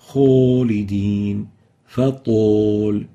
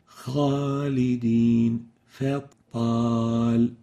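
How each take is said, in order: First: The last long vowel sounds like 'o'. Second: The last long vowel sounds like 'a'. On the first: The speaker calls it wrong. "the Arabic A sounds like an O of the English language" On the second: The speaker calls it right. "and not طول"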